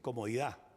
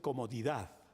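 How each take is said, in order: First: The final D sound is left off. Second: The final D sound is clearly pronounced. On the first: "se va perdiendo el sonido de la D final" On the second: "la gente ya no dice comodidad"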